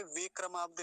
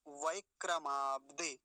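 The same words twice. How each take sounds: First: वेक्रमाब्दे opening on plain "ve"; quick वेक्रमाब्दे with "ve"; wrong pronunciation. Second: वैक्रमाब्दे slow, opening on "vai"; careful, stretched वैक्रमाब्दे; correct pronunciation. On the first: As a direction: flatten the ai to e in वेक्रमाब्दे. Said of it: "गलत भी उच्चारण क्या हो सकता है". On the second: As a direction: sound the ai glide in वैक्रमाब्दे. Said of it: "वे नहीं है". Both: Shown as a demonstration.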